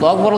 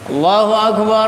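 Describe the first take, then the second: First: It is said very quickly and hurried. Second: It is said at a brisk, even pace. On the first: The speaker calls it wrong. "cepet-cepet banget" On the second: The speaker calls it right. "Enggak usah panjang-panjang. Jadi cepat"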